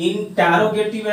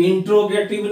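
First: इंटरोगेटिव said "in-TAA-ro-gay-tiv"; correct pronunciation. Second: इंट्रोगेटिव said "in-tro-gay-tiv", with T and R run together; wrong pronunciation. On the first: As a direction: say इंटरोगेटिव with a full vowel between T and R. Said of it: "देख लो टी ई डबल आर ओ है". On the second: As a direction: say इंट्रोगेटिव with a "tro" second syllable. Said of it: "इंट्रोगेटिव नहीं है". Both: Shown as a demonstration.

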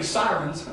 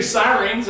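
First: Said in the usual way. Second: "sirens" said as "sigh-reens"; regional sirens. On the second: Real, not acted. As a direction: stretch the end of "sirens" into a long "reens". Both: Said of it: "did I say sirens?".

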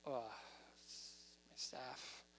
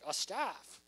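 First: Low, hushed and slow, with a hesitant uh; drawn-out, barely voiced reluctance; reluctant mumble. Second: Matter-of-fact, voice lifting at the end; plainly spoken with an upward lilt; upbeat guess. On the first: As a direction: admit it sheepishly under your breath. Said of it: "Or was he like". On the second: Acted. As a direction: offer it up brightly, ending on a rise. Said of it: "I wonder how he said it".

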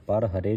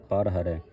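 First: ਪਰ ਹਰੇ ending on a closed e; the incorrect ਪਰ ਹਰੇ, ha-re; wrong reading. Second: ਪਰ ਹਰੈ ending on an open ai; correct reading. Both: Shown as a demonstration. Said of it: "ਪਰ ਹਰੇ ਨਹੀਂ ਪੜ੍ਹਨਾ".

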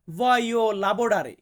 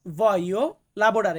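First: Each syllable of voglio lavorare drawn out very slowly; slow teaching model. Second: Voglio lavorare repeated very slowly and clearly. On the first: Teacher modelling voglio lavorare very slowly for viewers. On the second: Teacher repeating voglio lavorare slowly for viewers. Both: Shown as a demonstration. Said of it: "আমাকে বলতে হবে".

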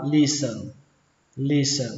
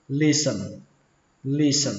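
First: "listen" with no t sound, like "lis-uh(n)"; silent T. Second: "listen" ending like Vietnamese "sần"; second pronunciation. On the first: Teacher showing learners a silent T in "listen". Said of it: "ở đây không có âm T". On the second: Teacher showing learners the second way, "listen" with sần. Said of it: "đọc chữ sờ này thành chữ sần". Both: Shown as a demonstration.

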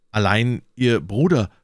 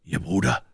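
First: Tentative inquiry with a touch of shyness; timid question. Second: "Bruder" lifted in a short rising question; echo question. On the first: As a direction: ask carefully, lingering on "Bruder". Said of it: "fragte D'Artagnan schüchtern". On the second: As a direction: echo "Ihr Bruder" back briefly, rising at the end. Athos echoes the question back. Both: A narrator's reading.

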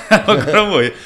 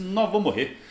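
First: Laughing through it, louder. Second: Said in the usual way. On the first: Real, not acted. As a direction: laugh out the words. Laughing at own story. (rindo, mais alto) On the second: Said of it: "eu falei assim".

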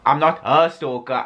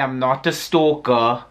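First: "her" leaned on to narrow the denial; stress on HER. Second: Said in the usual way. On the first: Real, not acted. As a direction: hit the word "her", not "stalker". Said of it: "I may be a stalker".

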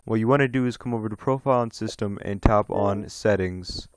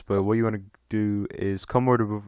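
First: Said in the usual way. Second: Tripping over the words; stumbling, halting delivery; stuttering. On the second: Real, not acted. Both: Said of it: "damn, I'm stuttering".

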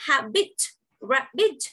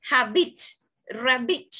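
First: "habit, rabbit" broken into two beats each; syllable by syllable. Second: Said in the usual way. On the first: Shown as a demonstration. Teacher showing students the two syllables, syllable by syllable. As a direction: say "habit" and "rabbit" with both syllables set apart. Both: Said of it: "you can find out two syllables".

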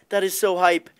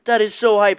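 First: Said in the usual way. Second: Higher and louder, hyped; more excited take. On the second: Shown as a demonstration. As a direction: punch it up with hype.

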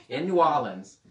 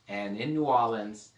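First: A light New Orleans local accent, a bit louder. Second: Said in the usual way. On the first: Shown as a demonstration. Preacher showing off a New Orleans accent to the class. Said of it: "I have to make sure I do an accent from the place". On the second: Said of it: "I have to make sure I do an accent".

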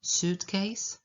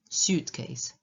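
First: "Suitcase" as SOOT-case, rising at the end; suitcase with plain oo. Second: "suitcase" as SYOOT-case, falling to a finish; suitcase with y-glide. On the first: Teacher repeating the first variant of "Suitcase", plain oo. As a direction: say "Suitcase" with no y after the S. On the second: Teacher repeating the other variant of "suitcase", with a y-glide. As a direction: put a y sound after the S of "suitcase". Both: Shown as a demonstration. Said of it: "Obie, obie są, e, poprawne".

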